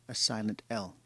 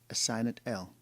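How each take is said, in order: The two takes are said the same way.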